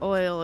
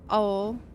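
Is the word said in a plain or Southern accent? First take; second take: plain; Southern. First: The word is said in a plain accent. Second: The word is said in a Southern accent. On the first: "oil's not oil" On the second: "it's oil"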